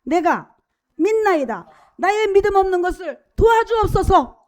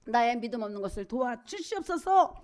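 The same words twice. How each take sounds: First: Loud, raised cry of faith. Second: Said in the usual way. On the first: Acted. Preacher reads the father's cry to Jesus, shouted plea. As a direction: call it out high and loud, imploring. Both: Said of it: "소리를 질러 가로되".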